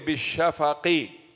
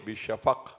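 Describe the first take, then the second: First: The word ends with a short vowel after q. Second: The word ends on a bounced, echoing q. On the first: The speaker calls it wrong. "We don't say bishafaqi" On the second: The speaker calls it right. "We say sukoon because of the stop. So again we will do qalqala"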